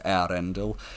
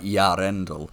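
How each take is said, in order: First: The e and a are subtly separated. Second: The name starts with a strong y sound. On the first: The speaker calls it right. "a much subtler thing where you just you separate the e and the a" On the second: The speaker calls it wrong. "he says it more like Yarendel, but that's a misunderstanding"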